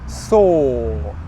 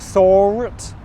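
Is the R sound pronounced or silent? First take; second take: silent; pronounced. First: The R sound is silent in the word. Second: The R sound is pronounced in the word. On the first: The speaker calls it right. "It's or, sort" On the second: The speaker calls it wrong. "I don't pronounce the R sound. So it's not sword or sort"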